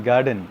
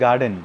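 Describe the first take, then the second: No difference in how they are said.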